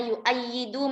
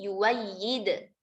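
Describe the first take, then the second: First: A glottal stop is heard after the first vowel. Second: A w glide replaces the glottal stop.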